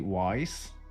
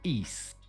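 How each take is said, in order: First: The name sounds like the word 'wise'. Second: The name sounds like the word 'east'. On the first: The speaker calls it wrong. "a lot of people say Wise" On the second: The speaker calls it right. "but you say East"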